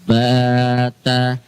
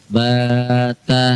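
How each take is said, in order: No difference in how they are said.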